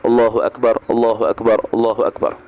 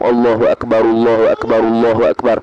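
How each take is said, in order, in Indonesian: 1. Setiap frasa dipisahkan oleh jeda. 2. Frasanya diucapkan bersambung tanpa jeda. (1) "waqaf-waqaf, eh satu kalimah per satu kalimah"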